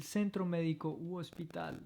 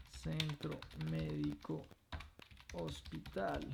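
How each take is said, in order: First: Said in the usual way. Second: Quieter careful Centro médico, hospital; soft clear echo; soft model repetition. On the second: Shown as a demonstration. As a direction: repeat softly for students.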